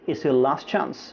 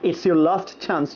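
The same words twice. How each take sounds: First: The t at the end of last is dropped. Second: The t at the end of last is pronounced. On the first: The speaker calls it right. "simply it's your last chance" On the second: The speaker calls it wrong.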